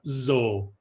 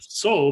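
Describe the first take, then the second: First: It starts with a voiced Z sound. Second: It starts with a voiceless S sound. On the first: The speaker calls it right. "a voiced Z sound" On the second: The speaker calls it wrong. "not a"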